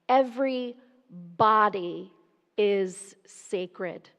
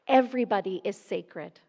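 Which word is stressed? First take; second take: body; every. First: The stress falls on body. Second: The stress falls on every.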